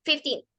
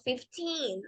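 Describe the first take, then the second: First: Put-on fast fifteen with the teen clipped short; wrong, rushed version. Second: Put-on slow, soft fifteen with a long airy teen. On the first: Teacher shows the class how not to say it, fast. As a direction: rattle off fifteen too quickly. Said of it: "no decimos fifteen". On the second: Teacher shows the right fifteen, slow and softer. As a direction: say fifteen slowly, with patience and breath. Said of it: "Hay que decirlo despacio y con paciencia y con aire". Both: Shown as a demonstration.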